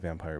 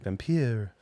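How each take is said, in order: First: The word is said in an ordinary voice. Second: The word is said in a theatrical put-on voice. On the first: The speaker calls it wrong. "We don't say vampire" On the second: The speaker calls it right. "I didn't do my vampire ... we say vampire"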